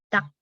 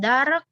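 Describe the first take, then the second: First: No R sound is heard before the K. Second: An R sound is heard before the K. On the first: The speaker calls it right. "R-nya nggak dibaca" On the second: The speaker calls it wrong. "Bacanya bukan dark"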